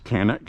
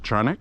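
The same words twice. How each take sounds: First: The name is said the American way. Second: The name is said the non-American way. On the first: "The American one is Canik" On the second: "which I guess is the correct pronunciation"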